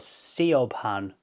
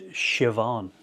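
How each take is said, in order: First: The name is read out the way it looks. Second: The name is said in its Irish way. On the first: The speaker calls it wrong. "So that that is spelled S I O B H A N. So Siobhan" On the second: The speaker calls it right. "but that's pronounced Siobhan"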